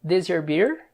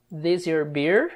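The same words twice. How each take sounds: First: Said in the usual way. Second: "This your beer?" said slowly with a rising end; slowed-down teaching repeat. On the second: Shown as a demonstration. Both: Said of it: "Daí o Dom pergunta".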